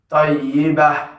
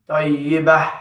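The two takes are said the same way.

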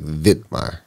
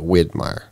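First: The name begins with a V sound. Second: The name begins with a W sound. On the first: "it's almost said with a V" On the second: "Instead of"

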